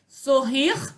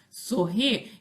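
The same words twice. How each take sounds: First: The final R sound is pronounced. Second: The final R sound is dropped.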